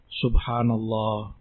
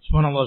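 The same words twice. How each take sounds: First: It is said slowly and calmly. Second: It is said very fast and hurried. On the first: The remembrance is done with reflection and hope. The speaker calls it right. "sunnahnya dibaca dengan tenang, tumak nina" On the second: The remembrance is rushed without reflection. The speaker calls it wrong. "dia baca ini dengan begitu ekspresnya"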